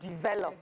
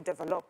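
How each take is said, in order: First: It is said without a Nigerian accent. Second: It is said with a Nigerian accent.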